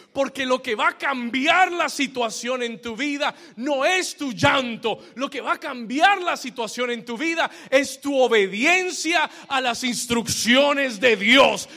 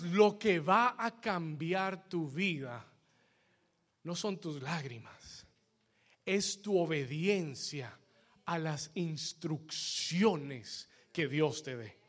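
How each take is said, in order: First: Loud, high, shouted proclamation; fervent preacher's shout, raised and driving; full-force preaching. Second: Low, soft, slow and deliberate; hushed, measured preacher's restatement; solemn repetition. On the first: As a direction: build to a booming sermon climax. Preacher shouts the climax to congregation. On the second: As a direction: let each phrase sink in, with pauses between. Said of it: "Se lo voy a repetir una vez más". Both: Real, not acted.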